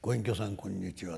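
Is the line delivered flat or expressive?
flat. The line is said flatly, without dramatic expression. The speaker calls it right. "芸は棒読みでいいです。"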